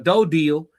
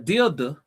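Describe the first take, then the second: First: The first syllable sounds like 'dough'. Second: The first syllable sounds like 'dill'.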